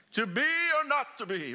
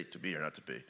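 First: Mock theatrical Hamlet; dramatic Shakespeare. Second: Throwaway plain reading; flat wrong way. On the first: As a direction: declaim it like a stage actor. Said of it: "You have to say it like that". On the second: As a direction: lower and much softer, tossed away. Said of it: "You can't say". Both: Shown as a demonstration.

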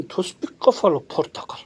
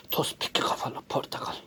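First: Said in the usual way. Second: "Tospik kafalı portakal" whispered low and soft. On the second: Pretend. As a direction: breathe it as a secret whisper. Same words whispered.

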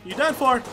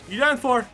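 Both takes have the same delivery.

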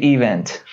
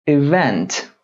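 First: ایونت stressed on the first syllable, EE-vent; ایونت said wrongly with a heavy first syllable. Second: ایونت with the second syllable hit, i-VENT; ایونت stressed on VENT. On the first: Teacher shows students the wrong stress, first syllable hit. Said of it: "نگید ایونت، نه". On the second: Teacher models the right word for students, second syllable stressed. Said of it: "استرس روی سیلاب دوم". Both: Shown as a demonstration.

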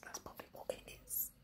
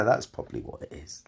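First: Whispered repeat. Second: Said in the usual way. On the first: Shown as a demonstration. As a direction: whisper it to yourself.

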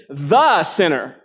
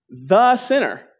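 First: Slow "the sinner" with "the" leaned on; slow, leaning hard on "the"; stress on THE. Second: Slow, higher "The sinner" with "The" hit hard; slow, high, hitting "The"; stress on THE. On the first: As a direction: press the word "the" in "the sinner". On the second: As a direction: lean on "The" as if there were no other sinner. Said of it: "in his mind, he's the only sinner". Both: Shown as a demonstration.

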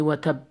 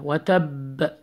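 First: وتب with a shut, unreleased final B; missing echo. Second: وتب with the final B bounced; echo sound. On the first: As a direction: stop dead on the ب ending وتب. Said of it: "Don't say". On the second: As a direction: release the ب ending وتب with an echo. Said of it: "echo sound". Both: Shown as a demonstration.

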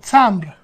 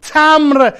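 First: تمبر with the b sounded, "tambr"; original Russian form. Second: تمر as "tamr", the b dropped; higher-pitched "tamr" without any b; everyday Persian pronunciation. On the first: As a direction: keep the full m-b-r cluster in تمبر. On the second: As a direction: go straight from m to r in تمر. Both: Shown as a demonstration.

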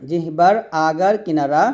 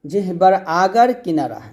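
Both takes have the same delivery.

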